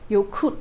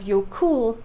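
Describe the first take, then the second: First: The final double L sounds like a TL. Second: The final double L is a plain L. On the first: The speaker calls it right. "I should have been saying jokul" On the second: The speaker calls it wrong. "instead of jokul"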